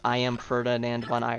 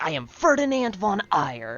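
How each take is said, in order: First: It is said in a flat, monotone voice. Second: It is said in a lively, energetic voice. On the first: The speaker calls it wrong. "it's not even that monotone. He's not like" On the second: The speaker calls it right. "he's got a lot of energy"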